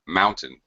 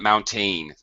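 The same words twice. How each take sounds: First: The stress is on the first syllable. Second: The stress is on the second syllable. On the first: The speaker calls it right. "First syllable stress" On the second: The speaker calls it wrong. "not mountain"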